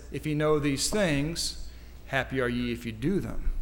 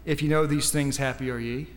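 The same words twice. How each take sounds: First: Measured reading, completing the verse with "if you do them"; stress on the condition. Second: Said in the usual way. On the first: Shown as a demonstration. Preacher correcting a misquoted verse, deliberate emphasis. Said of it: "He says". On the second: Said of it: "Christ didn't say".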